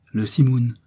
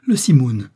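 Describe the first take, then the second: First: Puzzled repeat, less forceful; mildly bewildered repetition; uncomprehending echo. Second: Loud alarmed cry, falling at the end; sudden loud exclamation; exclaiming. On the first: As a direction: echo it without quite understanding. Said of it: "répéta Joey sans trop comprendre". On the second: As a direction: cry out the name of the storm. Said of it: "s'écria-t-il". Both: A narrator's reading.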